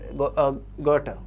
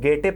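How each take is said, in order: First: The first vowel sounds like 'o'. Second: The first vowel sounds like 'e'. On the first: This is the pronunciation an online source gives. "इसका जो pronunciation Google पे बताया है उससे गोटे" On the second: This is how people commonly say it. "इनको लोग गेटे पढ़ते हैं"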